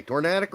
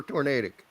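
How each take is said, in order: First: "Tornadic" with a short A, tor-NAD-ic; alternative pronunciation. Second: "tornadic" with a long A, tor-NAY-dic; contrasting pronunciation. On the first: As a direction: say "Tornadic" with its middle rhyming with "had". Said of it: "I thought it's pronounced tornadic". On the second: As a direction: say "tornadic" with its middle rhyming with "day". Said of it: "Meg, what do you say?". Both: Shown as a demonstration.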